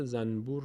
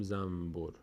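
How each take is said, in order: First: زنبور with an n before b; spelled pronunciation. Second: زنبور pronounced zambur. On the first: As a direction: sound the نون in زنبور. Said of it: "این رو ما در فارسی هم داریم که زنبور رو". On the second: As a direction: turn the n of زنبور into m. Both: Shown as a demonstration.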